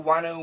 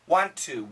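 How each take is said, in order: First: It is said fast, reduced to wanna. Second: Both words are said fully and slowly.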